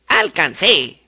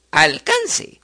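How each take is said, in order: First: Alcancé stressed on the final CÉ; stress on last syllable. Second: Alcance stressed on CAN; stress on middle syllable. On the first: Teacher showing a palabra aguda, al-can-CÉ. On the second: Teacher showing a palabra grave, al-CAN-ce. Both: Shown as a demonstration.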